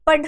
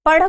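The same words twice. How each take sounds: First: पढ़ said with a plain stopped ढ, no flap; wrong plain ढ. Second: पढ़ said with the tongue flapped down sharply, as ढ़; correct flapped ढ़. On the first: Teacher showing students the wrong पढ़, stopped ढ. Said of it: "पढ़ नहीं कहूंगी". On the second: Teacher showing students the right पढ़, flapped ढ़. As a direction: flap the ढ़ in पढ़ crisply. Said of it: "पढ़ को पढ़ ही कहूंगी". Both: Shown as a demonstration.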